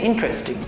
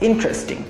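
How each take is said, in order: Both takes have the same delivery.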